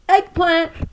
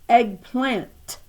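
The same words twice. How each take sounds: First: The final t sound is left off. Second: The final t sound is hit very hard. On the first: The speaker calls it wrong. "she pronounced it eggplan" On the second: The speaker calls it right. "emphasizing the T so vigorously"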